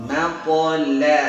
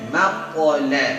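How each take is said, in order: No difference in how they are said.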